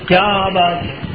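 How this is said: It is said with an admiring, exclamatory tone. The speaker praises how excellent something is. "اب نہیں سمجھے کہ میں سوال کر رہا ہوں"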